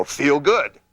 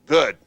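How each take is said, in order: First: "Feel good." said as a firm command, higher and louder, pitch dropping on "good"; falling command. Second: "Good." barked louder, one word, pitch dropping at the end; falling command. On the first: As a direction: order "Feel good." with the tune falling hard at the end. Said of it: "Voice inflection down". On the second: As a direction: clip "Good." short as an order, tune going down. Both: Shown as a demonstration.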